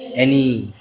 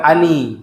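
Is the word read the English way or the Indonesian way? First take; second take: English; Indonesian. First: The word is read with English pronunciation. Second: The word is read with Indonesian spelling sounds. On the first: The speaker calls it right. "tapi bacanya eh any" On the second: The speaker calls it wrong. "Itu bacanya bukan ani. Kalau ani itu bahasa Indonesia"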